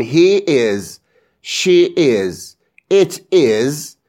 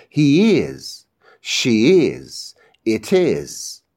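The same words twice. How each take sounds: First: Each word apart in "he is، she is، it is"; separated words. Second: Each pair run together in "he is، she is، it is"; linked words. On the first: (تلفظ جداجدای he is، she is، it is) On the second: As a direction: link the final sound into "is" in "he is، she is، it is". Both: Shown as a demonstration. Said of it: "کلمه ها رو به هم میچسبونم".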